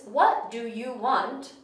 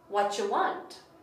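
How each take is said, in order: First: Each small word is said fully and separately. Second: The small words are combined into one reduced word. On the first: "So the sentence"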